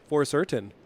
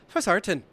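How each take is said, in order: First: It is said in a plain, natural accent. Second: It is said in a put-on Irish accent. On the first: The speaker calls it wrong. "instead of being for certain" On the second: The speaker calls it right. "put the accent on there"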